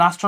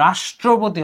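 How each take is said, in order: First: রাষ্ট্র with a plain "s"; wrong pronunciation. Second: রাষ্ট্রপতি with a long "sh"; corrected pronunciation. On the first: Teacher showing the mistake, রাষ্ট্র with s. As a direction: say রাষ্ট্র as "ras-tro". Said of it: "তুমি কিন্তু রাষ্ট্র নয়". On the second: Teacher correcting students, রাষ্ট্রপতি with a held sh. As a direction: say রাষ্ট্রপতি as "raash-tro-poti". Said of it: "রাষ্ট্রপতি হবে". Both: Shown as a demonstration.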